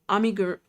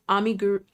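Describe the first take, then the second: Both takes have the same delivery.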